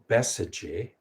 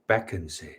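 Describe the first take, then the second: First: It is said in the Sanskrit pronunciation. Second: It is said in the Tibetan pronunciation. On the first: "the Sanskrit is uh" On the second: "the Tibetan pronunciation generally is uh"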